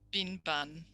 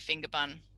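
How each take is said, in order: First: The first word is shortened to 'bin'. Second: The first word is said in full as 'finger'. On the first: This is how a young child says it. "stopping and they've also got voicing... weak syllable deletion" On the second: This is the intended adult word. "That's going to be finger bun"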